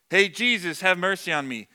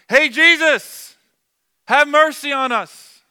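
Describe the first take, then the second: First: It is said quietly and plainly. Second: It is shouted at full volume.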